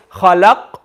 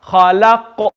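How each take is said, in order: First: خلق with a silent, stopped qaf; without qalqala. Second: خلق with the qaf bouncing out; with qalqala. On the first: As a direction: shut خلق off, no sound released on the qaf. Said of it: "and no sound is coming out". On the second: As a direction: release an echoing sound after the qaf in خلق. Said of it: "sound of the qaf needs to come out". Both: Shown as a demonstration.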